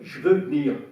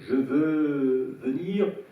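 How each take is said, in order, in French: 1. Certaines voyelles sont avalées et supprimées. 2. Toutes les voyelles sont entièrement prononcées. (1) "il faut dire" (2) "au lieu de dire euh"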